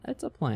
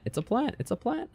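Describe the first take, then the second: First: Said in the usual way. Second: High, rising "It's a plant". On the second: Acted. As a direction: sing it up high, questioning. Repeating the word with changing tune.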